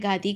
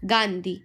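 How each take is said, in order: First: The first syllable has no nasal sound. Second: The first syllable has a nasal sound. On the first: The speaker calls it wrong. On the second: The speaker calls it right.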